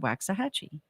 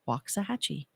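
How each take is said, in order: First: It is said the way an outsider would. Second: It is said the way a local would. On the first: The speaker is not from the area. The speaker calls it wrong. "If you if you're not from Texas and you first come here and you look at the sign, people say Waxahachie" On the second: The speaker knows the local way. The speaker calls it right. "I've learned to say Waxahachie because it's the correct way to say it"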